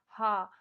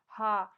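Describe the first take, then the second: No difference in how they are said.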